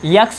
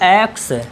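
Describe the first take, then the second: First: It begins with a y sound. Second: It begins with a plain vowel sound. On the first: The speaker calls it wrong. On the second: The speaker calls it right.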